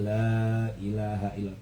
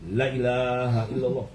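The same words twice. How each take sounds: First: The vowel of 'la' is held for two beats. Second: The vowel of 'la' is clipped with no lengthening. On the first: The speaker calls it right. "cuman dua harakat" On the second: The speaker calls it wrong.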